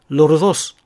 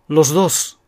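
First: A tapped r sound comes before dos. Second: An s sound comes before dos.

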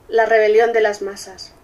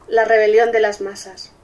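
Both takes have the same delivery.

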